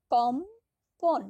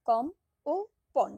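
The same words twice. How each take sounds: First: কম্পন stretched very slowly, high and loud as one breath; drawn-out whole word. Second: কম, ও, পন: syllables said apart with pauses; split into syllables. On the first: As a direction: draw out কম্পন slowly and loudly. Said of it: "আলাদা আলাদা করে ক, ম, প, ন উচ্চারণ করছি না". (টেনে টেনে জোরে উচ্চারণ) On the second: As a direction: say কম then পন separately. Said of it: "দুটি অক্ষর আছে". (সিলেবল আলাদা করে বলা) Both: Shown as a demonstration.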